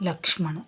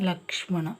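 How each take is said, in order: No difference in how they are said.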